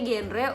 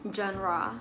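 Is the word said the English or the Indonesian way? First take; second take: Indonesian; English. First: The word is said with Indonesian pronunciation. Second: The word is said with English pronunciation. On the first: "Kalau bahasa Indonesia genre" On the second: "untuk bahasa Inggrisnya genre"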